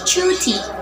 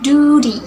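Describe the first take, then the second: First: It is said in a British accent. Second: It is said in an American accent. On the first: "In British accents" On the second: "In American accents"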